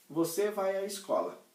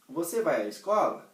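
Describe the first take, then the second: First: Você vai à escola with a falling statement tune. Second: "Você vai à escola" rising at the end like a question. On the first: Teacher contrasts statement with question, falling tune. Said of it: "eu estou afirmando". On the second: Teacher contrasts statement with question, rising tune. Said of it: "eu mudei a entonação". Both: Shown as a demonstration.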